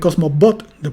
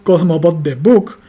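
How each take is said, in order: First: The stress is on bought. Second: The stress is on book.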